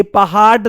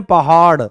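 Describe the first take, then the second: First: "पहाड़" slowed, ending in a hard ड stop; mispronounced hard ड. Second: "पहाड़" ending in a tongue flap, falling tune; natural flapped ड़. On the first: Teacher showing what nobody says, mispronounced hard ड. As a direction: say "पहाड़" wrongly with a stiff, unflapped final "d". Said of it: "ऐसे तो कभी नहीं बोलते". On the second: Teacher showing what we really say, natural flapped ड़. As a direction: let the tongue flick at the end of "पहाड़". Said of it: "हम क्या बोलते हैं?". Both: Shown as a demonstration.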